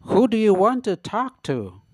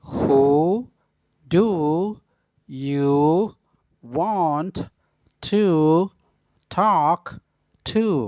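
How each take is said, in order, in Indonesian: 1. Kata-katanya menyatu pada kecepatan normal. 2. Setiap kata diucapkan terpisah dengan jeda. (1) "Yang pertama dengan pengucapan secara normal atau biasa" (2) "yang kedua dengan pengucapan kata per kata"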